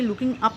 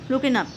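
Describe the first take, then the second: First: The final g of looking is clearly pronounced. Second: The final g of looking is dropped. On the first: The speaker calls it wrong. "हमने इसे लुकिंग up नहीं बोलना" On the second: The speaker calls it right. "बल्कि बोलना है लुकिंग up"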